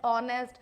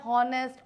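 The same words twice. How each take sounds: First: "honest" beginning on the O vowel; silent H. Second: "honest" with an audible H; H sounded. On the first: Teacher recaps the right reading, "honest" with H silent. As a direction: leave out the H in "honest". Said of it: "एच की जो ध्वनि है वो दबा दी जाती है". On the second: Teacher recaps the misreading, "honest" with H voiced. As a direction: voice the first letter H in "honest". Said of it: "ये तो हमने समझ गया". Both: Shown as a demonstration.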